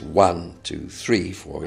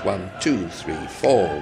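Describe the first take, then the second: First: The stress falls on one and three. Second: The stress falls on two and four. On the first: The rhythm feels heavy and plodding. The speaker calls it wrong. "somebody who's not musical will tend to hit the first and third beats" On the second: The rhythm keeps moving forward. The speaker calls it right. "will sometimes emphasise the second and the fourth"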